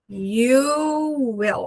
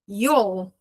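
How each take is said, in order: First: It is said as two full separate words. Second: It is said as one contracted syllable.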